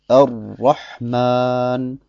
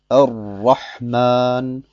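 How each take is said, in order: The two takes are said the same way.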